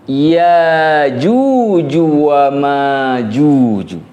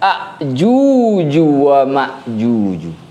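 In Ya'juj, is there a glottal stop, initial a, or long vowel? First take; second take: long vowel; initial a. First: The glottal stop is dropped, leaving a long vowel. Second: The word starts with a instead of ya. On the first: "hamzah yang dihilangkan. Sehingga yang tersisa hanya alif" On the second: "mengganti huruf ya dengan huruf alif"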